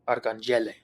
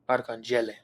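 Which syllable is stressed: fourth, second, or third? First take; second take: third; third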